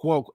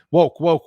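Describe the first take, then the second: First: Said in the usual way. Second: "woke, woke" punched loud; woke stressed loud. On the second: Real, not acted. Vlogger ranting at woke ads, punching woke. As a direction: hammer "woke" twice, loud.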